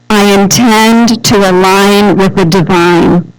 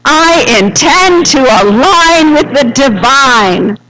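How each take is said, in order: First: It is said calmly, without special energy. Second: It is said with enthusiasm and energy.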